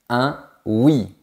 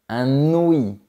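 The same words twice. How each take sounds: First: The words are said without a linking consonant. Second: A linking consonant joins the words. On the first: The speaker calls it right. "on dit" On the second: The speaker calls it wrong. "on ne dit pas"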